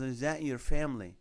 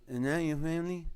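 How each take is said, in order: First: "Is that your family" repeated with each word distinct; clearer repeat. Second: "Is that your family" run together, first words swallowed; hard-to-understand mumble. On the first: Seatmate repeats his question after "excuse me", imitated clearer repeat. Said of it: "Excuse me". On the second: Seatmate asks about the laptop photo, imitated hard-to-understand mumble. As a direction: slur "Is that your" into a blur before "family". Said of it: "I'm the guy that's hard to understand". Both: Retold or imitated.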